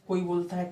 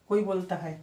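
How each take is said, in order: The two takes are said the same way.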